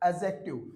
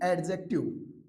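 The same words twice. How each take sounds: First: The d sound before the j is silent. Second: The d sound before the j is pronounced. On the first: The speaker calls it right. "डी के बाद में जे हो तो डी का उच्चारण नहीं होगा" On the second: The speaker calls it wrong. "न कि"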